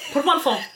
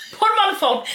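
First: Said in the usual way. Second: High, louder gruff thief demand; mock gangster demand. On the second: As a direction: bark it like a hammy kidnapper.

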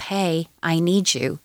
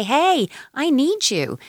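First: Said in the usual way. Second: High, slow, drawn-out call on "Hey"; a demonstrated shouty call, pitched up and stretched; big shouty voice. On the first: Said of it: "gradually she's going to pick up". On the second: Shown as a demonstration. Giving an upset toddler words for screaming, big shouty voice. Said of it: "using your big shouty voice".

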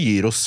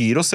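First: "gyros" said with a soft J, like "yee-ros"; "gyros" with the g pronounced as j. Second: "gyros" said with a hard G, "GY-ros"; "gyros" with hard g as in "god". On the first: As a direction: say "gyros" starting with a Norwegian j sound. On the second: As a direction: say "gyros" starting with a hard g sound. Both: Shown as a demonstration. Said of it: "Sier du gyros eller gyros?".

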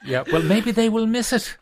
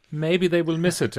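First: High laughing reply, amused. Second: Said in the usual way. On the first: Real, not acted. Host laughing back at the guest's cheeky hint, high and laughing. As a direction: laugh the words out, pitch way up. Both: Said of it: "Hint, hint".

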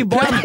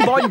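First: "vann" with a dark, rounded vowel, like "vonn"; mock dialect vowel. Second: Said in the usual way. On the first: Shown as a demonstration. Telling dialect speakers what not to say, dialect "vann". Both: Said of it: "slutt å si vann, si vann".

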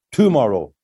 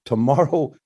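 First: "tomorrow" with the first syllable punched as TOO-morrow; misplaced stress. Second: Said in the usual way. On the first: Shown as a demonstration. Songwriter showing novices' twisted emphasis, stress on first syllable of "tomorrow". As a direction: lean hard on the opening "to" of "tomorrow". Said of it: "the emphasis on a word". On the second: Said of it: "you speak it".

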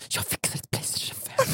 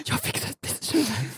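First: Whispered conspiratorial offer; mock whisper. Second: High, clearer voiced repeat of "Jag fixar ett Playstation fem". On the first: [name] pretending to whisper a bribe to the mother. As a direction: whisper the promise of "Playstation fem". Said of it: "viskar tillbaka så här". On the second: [name] repeating his whispered bribe aloud for Joel.

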